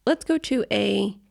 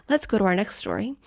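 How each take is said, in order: First: Slow, measured news anchor read; newscaster voice. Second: Said in the usual way. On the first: Shown as a demonstration. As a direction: lead into the next story like a news anchor. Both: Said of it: "I sound like a newscaster now".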